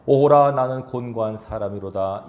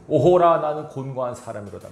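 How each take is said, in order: First: Steady reading voice with a small lift on 오호라; scripture reading. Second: Anguished lament. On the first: Shown as a demonstration. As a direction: read as part of the passage, only slightly raised. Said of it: "바울이 고-, 고통하고 있습니다". (본문을 읽듯 담담하게, 오호라만 살짝 힘주어) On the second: Retold or imitated. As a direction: voice Paul's anguish, crying out then collapsing. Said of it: "바울이 고-, 고통하고 있습니다, 지금". (오호라를 높고 크게 외치고 뒷부분은 힘없이 가라앉게)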